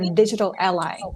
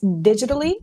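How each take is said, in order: First: It is said as two words, digital ally. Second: It is said as one word, digitally. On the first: "or digital ally?" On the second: "do we pronounce it as digitally"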